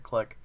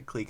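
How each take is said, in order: First: The vowel is short, like 'click'. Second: The vowel is long, like 'cleek'. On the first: This is the pronunciation the speaker does not use. "instead of Click" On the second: This is the speaker's usual, British-style pronunciation. "I say Clique"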